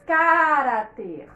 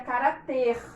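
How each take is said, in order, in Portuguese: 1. A sílaba tônica é a primeira. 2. A sílaba tônica é a última. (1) "Se fosse a antepenúltima, nós diríamos" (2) "Se essa palavra não tivesse acento, a gente diria"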